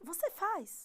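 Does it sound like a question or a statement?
question. It is said with question intonation. It asks a question. "podemos transformar qualquer afirmação em pergunta apenas com a entonação"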